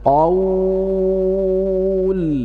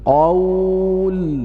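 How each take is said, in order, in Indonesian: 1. Vokal panjang ditahan selama enam ketukan. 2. Vokal panjang ditahan selama empat ketukan. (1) "Yang pertama dibaca enam harokat" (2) "kemudian empat harokat"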